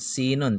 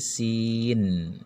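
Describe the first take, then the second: First: The word ends with an added '-un' syllable. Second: The word stops on the final consonant. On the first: The speaker calls it wrong. "bukan sinun" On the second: The speaker calls it right. "tapi sin"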